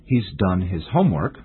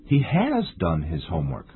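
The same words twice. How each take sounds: First: Said in the usual way. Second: "has" stressed, said in full. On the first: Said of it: "compare the sentences". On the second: Shown as a demonstration. Teacher comparing two sentences for English learners, stress on "has". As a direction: lean firmly on "has". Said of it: "we stress the auxiliary verb".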